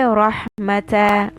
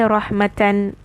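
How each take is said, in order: First: The word ends with a short open a vowel. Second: The word ends with a full -atan syllable. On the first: The reader is pausing on the word. The speaker calls it wrong. "I will not say rahmata when I stop on this. That's wrong" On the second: The reader continues without pausing. The speaker calls it right. "when I'm going to continue, I will say rahmatan"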